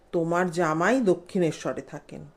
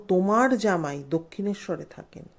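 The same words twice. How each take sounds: Both takes have the same delivery.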